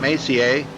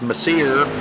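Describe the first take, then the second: First: The name is pronounced in a French style. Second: The name is pronounced in an English style. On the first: The speaker calls it right. "I was told that's how you say that" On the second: The speaker calls it wrong. "I was thinking it was"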